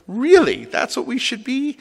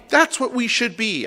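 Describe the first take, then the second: First: High-pitched questioning echo, rising at the end; retold incredulity. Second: High, slow emphatic declaration; retold fervent insistence. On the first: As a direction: throw it back at the member in disbelief. Rabbi's retold doubting reply. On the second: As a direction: drive the point home as the impassioned member. Member's emphatic conclusion, acted.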